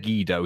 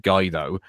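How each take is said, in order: First: Guido said as GEE-doh, hard g; wrong pronunciation. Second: Guido said as GUY-doh; wrong pronunciation. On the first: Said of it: "we were both wrong". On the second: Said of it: "he said Guido". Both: Shown as a demonstration.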